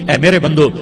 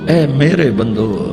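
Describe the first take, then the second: First: It is said in a plain, unaffectionate tone. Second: It is said in a tender, loving tone. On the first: The speaker calls it wrong. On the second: The speaker calls it right.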